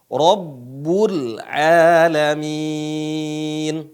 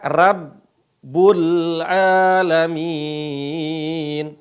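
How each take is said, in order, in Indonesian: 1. Bunyi r-nya berat dan tebal. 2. Bunyi r-nya ringan dan tipis. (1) "tapi dibaca apa?" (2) "Ra bukan dibaca"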